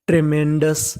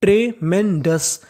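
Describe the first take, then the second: First: Said in the usual way. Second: ट्रेमेंडस drawn out slowly, syllable by syllable; slow teaching read. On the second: Shown as a demonstration. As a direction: sound out ट्रेमेंडस slowly for the class. (ट्रेमेंडस धीरे-धीरे) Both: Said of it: "पूरी meaning".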